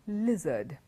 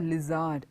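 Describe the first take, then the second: First: The stress falls on the expected syllable. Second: The stress falls on a misplaced syllable. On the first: The speaker calls it right. "It's a lizard" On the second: The speaker calls it wrong. "It's not a lizard"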